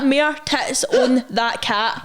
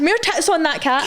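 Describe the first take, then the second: First: "More tits on that cat" read out slowly, word by word, with a laugh; slow quote. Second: Said in the usual way. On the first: Shown as a demonstration. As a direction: slowly spell out "More tits on that cat" as the comment was written. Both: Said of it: "He actually spelled it like".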